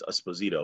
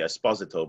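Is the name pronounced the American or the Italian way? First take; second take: American; Italian. First: The name is said with American English pronunciation. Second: The name is said with Italian pronunciation. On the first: This is how it is said in America. "but it's Esposito, of course, in America" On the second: This is how it is said in Italy. "In Italian, say Esposito"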